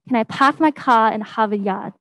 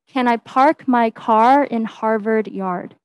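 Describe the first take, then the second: First: The R sounds are dropped to ah. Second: The R sounds are clearly pronounced. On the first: "if I were to try the Bostonian accent" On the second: "if I were to say it again normally"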